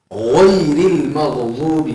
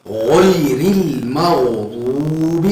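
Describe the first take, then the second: First: غیر المغضوب drawn out even slower, غ thick; slower repeat. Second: غیر المغضوب recited slowly with a thick غ; recited example. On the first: Teacher repeating the example even slower for students. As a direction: stretch every syllable. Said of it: "یہ تھوڑا موٹا نکلے گا". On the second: Teacher reciting the Quran example for ghain, slow. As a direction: chant it slowly. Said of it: "تھوڑا موٹا ادا کیا جائے گا". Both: Shown as a demonstration.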